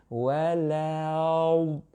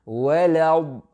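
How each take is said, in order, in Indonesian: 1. Kata walad itu dipanjangkan dengan sangat perlahan. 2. Kata walad itu diucapkan dengan cepat dan lancar. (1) "slow motion bunyi begini" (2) "laju sikit lidah tu"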